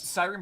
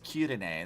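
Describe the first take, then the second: First: The name is said in the British way. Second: The name is said in the Japanese way. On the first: "the British pronunciation" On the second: "the Japanese one is is Kirine"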